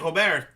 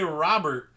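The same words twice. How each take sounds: First: The name is said with a Spanish pronunciation. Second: The name is said with an English pronunciation. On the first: The speaker calls it right. "You say Robert" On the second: The speaker calls it wrong. "in Spanish, you don't say Robert"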